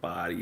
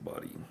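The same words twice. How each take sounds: First: The first vowel is long and drawn out. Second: The first vowel is clipped and short. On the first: A native English speaker says it. The speaker calls it right. "instead of like body" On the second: A non-native English speaker says it. The speaker calls it wrong. "they don't elongate it"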